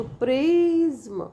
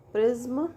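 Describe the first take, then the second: First: "प्रिज्म" long drawn out, priii-zm; two syllables. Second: Said in the usual way. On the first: Shown as a demonstration. Teacher demonstrating syllables to students, slow two-beat word. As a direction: stretch both beats of "प्रिज्म", falling at the end. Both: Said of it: "with two syllables".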